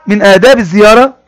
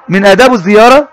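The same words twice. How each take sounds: The two takes are said the same way.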